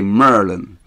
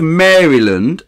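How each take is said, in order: First: The name is squeezed into a local-style form. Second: The name is said fully, in standard form.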